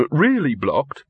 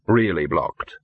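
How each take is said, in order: First: REALLY raised, BLOCKED lifting into a question. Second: "Really blocked" low and falling to a full stop; confirming. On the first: Victor checks on the blocked tunnel, questioning. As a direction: ask it with "Really blocked" rising at the end. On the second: Dog confirms the tunnel is shut, grimly final. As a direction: answer with REALLY and BLOCKED both dropped low. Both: Acted.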